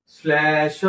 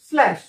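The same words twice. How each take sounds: First: slash with the stress pushed onto the final श; end-stressed reading. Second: slash said fast in one smooth go; quick reading. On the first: Teacher showing students the habit to avoid. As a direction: lean hard on the श of slash. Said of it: "की शेवटच्या अक्षरावर जोर द्यायचा". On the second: Teacher showing students the quick fluent reading. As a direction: read slash quickly, no lean on the end. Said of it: "पटकन slash". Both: Shown as a demonstration.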